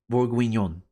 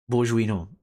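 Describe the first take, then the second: First: Bourguignon guessed as "borg-win-yon"; unsure pronunciation. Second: Bourguignon guessed as "bozh-wee-no"; unsure pronunciation. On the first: Streamer guessing at a French dish, bourguignon said "borg-win-yon". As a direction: sound out bourguignon with a hard g and a "win" in the middle. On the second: Streamer retrying a French dish name, Bourguignon said "bozh-wee-no". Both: Real, not acted. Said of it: "I don't know how you pronounce that".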